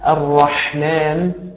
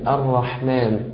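First: The throaty h sound is exaggerated and forced. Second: The throaty h sound is moderate and natural. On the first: The speaker calls it wrong. "فلا تقول الرحمن، لا" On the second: The speaker calls it right. "ولكن قل الرحمن الرحمن"

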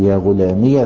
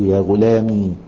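First: The final ya carries a short a vowel. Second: The final ya has no vowel after it. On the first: The phrase continues without a stop. "تسكن الياء إذا وقفت وتفتحها متى وصلت" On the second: The speaker stops on this word. "فتسكن الياء إذا وقفت"

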